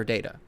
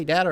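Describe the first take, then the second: First: "data" with a long a, as in day; data as DAY-tuh. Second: "data" with a short a, as in cat; data as DAT-uh. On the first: Host asking which was said, "data" as DAY-tuh. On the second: Host asking which was said, "data" as DAT-uh. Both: Shown as a demonstration. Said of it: "Did he say data or data?".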